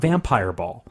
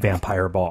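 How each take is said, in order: First: The stress falls on the word vampire. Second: The stress falls on the word ball. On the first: It names a game. The speaker calls it wrong. "Vampire ball is a game that has not been invented yet" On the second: It names a dance party for vampires. The speaker calls it right. "I cannot stress the difference enough"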